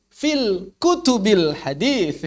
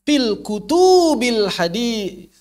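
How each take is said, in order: First: Hadis ending with th, slow and careful; correct pronunciation. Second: Hadis said with a plain s, slow; wrong pronunciation. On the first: Teacher giving the correct reading. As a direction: say fil kutubil hadis with the th sound. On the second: Teacher imitating a wrong reading he often hears. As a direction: drag out Fil kutubil hadis the wrong way. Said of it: "masih sering saya dengar". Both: Shown as a demonstration.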